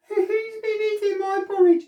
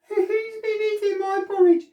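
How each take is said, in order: First: It is said in a tiny, high voice. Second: The same.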